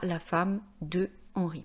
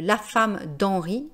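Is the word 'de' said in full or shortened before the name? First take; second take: full; shortened. First: The word de is said in full. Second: The word de is shortened to d'. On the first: The speaker calls it wrong. "et non pas" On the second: The speaker calls it right. "si je disais"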